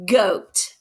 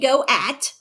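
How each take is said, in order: First: The vowels blend into one long syllable. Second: The vowels are split into two separate syllables. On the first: The speaker calls it right. "I say goat" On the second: The speaker calls it wrong. "I don't say go at"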